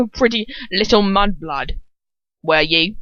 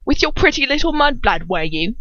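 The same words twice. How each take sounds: First: Put-on lightly slurred drunken taunt; mild slur. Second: Put-on higher, louder slurred drunken taunt. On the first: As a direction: slur the words a little, drunkenly. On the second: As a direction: lean into the drunk slur, leering. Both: Shown as a demonstration. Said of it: "I have to get it right".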